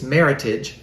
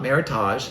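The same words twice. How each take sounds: First: The ending sounds like the end of heritage. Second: The ending sounds different from the end of heritage. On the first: The speaker calls it right. "it's meritage ... matches with heritage" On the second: The speaker calls it wrong. "not meritage"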